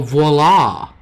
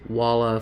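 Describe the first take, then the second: First: The word begins with a v sound. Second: The word begins with a w sound. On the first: The speaker calls it right. "Oh, voila!" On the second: The speaker calls it wrong. "I learned it was Walla phonetically"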